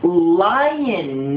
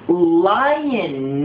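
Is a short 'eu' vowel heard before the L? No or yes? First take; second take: yes; yes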